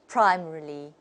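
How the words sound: It is said with a British accent. "the British people will say them"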